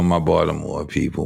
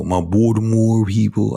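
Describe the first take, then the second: First: Said in the usual way. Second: Mock Baltimore accent on "Baltimore". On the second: Host teasing his Baltimore people, mock Baltimore accent. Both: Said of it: "that accent".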